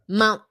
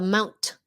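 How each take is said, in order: First: The final T is stopped, not released. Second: The final T is fully released. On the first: The speaker calls it right. "Stopped T" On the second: The speaker calls it wrong. "Chứ không phải là Mount"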